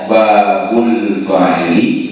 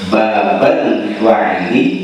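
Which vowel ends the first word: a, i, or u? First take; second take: u; a. First: The first word ends in an u vowel. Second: The first word ends in an a vowel. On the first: It is the predicate of an omitted subject. "Kalau dibaca babu, itu khobar mubtada mahdzuf" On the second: It is the object of an omitted verb. "Kalau dibaca babah, itu maf'ul lil fi'l mahdzuf"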